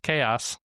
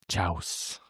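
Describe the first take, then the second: First: It is said as two syllables, kay-oss. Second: It is said as one syllable, like chouse. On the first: The speaker calls it right. "pretty sure that's that's not right. It's it's chaos" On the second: The speaker calls it wrong. "he kept pronouncing chaos as chouse"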